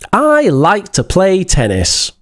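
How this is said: It is said in a friendly, warm tone. "Sounds friendly"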